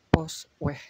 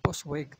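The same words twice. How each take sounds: First: It is said with a Dutch pronunciation. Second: It is read out letter by letter as spelled. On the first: The speaker calls it right. "tapi Postweg" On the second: The speaker calls it wrong. "bukan Postweg"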